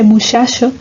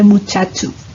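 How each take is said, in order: First: The ch is a soft fricative sh sound. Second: The ch is a full affricate ch sound. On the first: "la pronunciación fricativa de che" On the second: "en lugar de"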